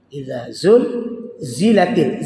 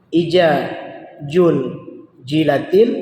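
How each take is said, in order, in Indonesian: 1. Konsonannya diucapkan seperti bunyi z. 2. Konsonannya diucapkan seperti bunyi j. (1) "Za lagi, bukan jilatil" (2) "ada orang yang baca memang jim semuanya. Ini parah kali"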